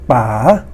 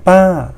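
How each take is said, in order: First: The pitch rises from low to high. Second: The pitch falls from high to low. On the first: Dad. "rising tone" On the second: Auntie. "the falling tone"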